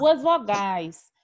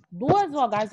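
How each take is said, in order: First: Each word drawn out slowly; stretched, deliberate Duas vogais; slow stressed definition. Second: Said in the usual way. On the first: Shown as a demonstration. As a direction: spell the rule out slowly for the class.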